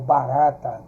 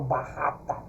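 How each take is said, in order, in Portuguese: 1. O r é um toque único e brando. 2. O r é um som forte e áspero. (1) "ela de natureza ela já tem um som mais brando" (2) "eu não falo barrata"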